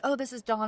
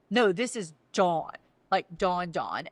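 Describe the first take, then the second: First: Said in the usual way. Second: "Dawn" drawn out and weighted, then dropped low; stress on Dawn. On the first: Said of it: "and he's like". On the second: Retold or imitated. Husband hints this is that Dawn, stressing "Dawn". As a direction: lean meaningfully on each "Dawn". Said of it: "And he's like".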